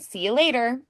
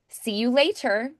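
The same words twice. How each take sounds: First: The words run together with reduced sounds. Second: Each word is pronounced fully and carefully. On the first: It sounds casual among friends. "if I was casual with a friend" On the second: It sounds more formal. "would feel a little more formal"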